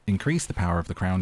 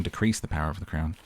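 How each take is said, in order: First: Increase read with weight, crown after it; stress on increase. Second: Decrease leaned on, voice dropping lower after; stress on decrease. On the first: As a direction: lean into increase to test the sentence. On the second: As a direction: hit decrease to set it against increase. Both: Shown as a demonstration. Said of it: "that sentence doesn't make sense".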